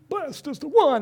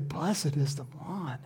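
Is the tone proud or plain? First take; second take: proud; plain. First: It is said proudly, full of himself. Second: It is said plainly, without pride.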